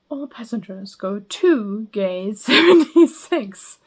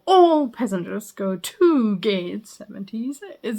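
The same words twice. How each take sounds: First: "seventy-six" hit louder and slowed down, stress on the number; airport announcement stress. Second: "All passengers go to gate seventy-six" evenly, slower, stress on "All". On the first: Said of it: "they're like". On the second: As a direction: read the whole line evenly, leaning a little on "All". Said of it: "rather than saying". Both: Shown as a demonstration.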